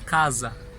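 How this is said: It is said with the Milanese regional s sound. "Já em Milão se fala casa"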